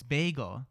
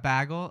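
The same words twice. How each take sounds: First: It is said in a plain accent. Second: It is said in a Jersey accent. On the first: The speaker calls it right. "I'm like, oh, it's bagel" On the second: The speaker calls it wrong. "it's just their accent. Or they'll go"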